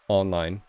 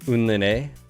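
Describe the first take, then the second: First: The first syllable sounds like 'on'. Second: The first syllable sounds like 'un'. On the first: "Is it online? That's what it looks like" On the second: "from a French streamer, I'm okay with Unline"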